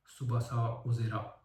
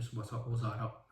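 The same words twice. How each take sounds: First: "اوزرا" read as printed, ozra, with no a after the z; misprinted pronunciation. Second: "اوزارا" said ozara, with a full a after the z; "سوباسا اوزارا" said correctly as ozara; correct pronunciation. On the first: Reviewer reads the book's typo aloud, misprinted pronunciation. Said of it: "در حالی که سوباسا اوزارا درسته". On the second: Reviewer gives the correct form after the typo, correct pronunciation. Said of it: "درسته". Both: Shown as a demonstration.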